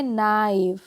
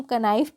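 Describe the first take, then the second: First: "नाइफ" starting on n, no k; drawn-out "नाइफ", teacher modelling the silent K. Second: "कनाइफ" with a ka before the n; "कनाइफ" as a questioned wrong reading, k voiced; K sounded in knife. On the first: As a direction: say "नाइफ" slowly with the K left silent. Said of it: "के जो होती है वो silent होती है". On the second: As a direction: sound out the silent K, making it "कनाइफ". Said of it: "ये गलत हो जाएगी". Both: Shown as a demonstration.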